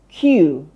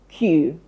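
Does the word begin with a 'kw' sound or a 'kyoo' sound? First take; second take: kyoo; kyoo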